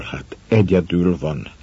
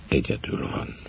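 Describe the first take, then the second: First: Said in the usual way. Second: Almost breathless hush on "egyedül van"; whispered. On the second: A narrator's reading. Narrator realizes the wife is alone, whispered. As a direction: let "egyedül van" sink to a whisper, voice dropping away.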